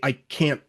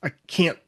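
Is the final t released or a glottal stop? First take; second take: glottal stop; glottal stop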